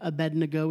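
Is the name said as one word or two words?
one word. The name runs together as one word. The speaker calls it wrong. "normally people say Shadrach, Meshach, Abednego as if Abednego is one word"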